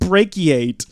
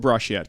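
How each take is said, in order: First: The first syllable sounds like 'brack'. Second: The first syllable sounds like 'brush'. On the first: The speaker calls it right. "It's pronounced brachiate" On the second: The speaker calls it wrong. "We're not even saying it correctly"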